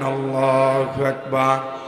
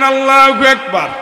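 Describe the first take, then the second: First: It is shouted loudly. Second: It is shouted even louder.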